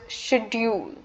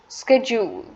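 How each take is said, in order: First: It is pronounced in an Indian English way. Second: It is pronounced in an American English way. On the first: "according to the Indian English, it is pronounced as" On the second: "according to the American English, it's"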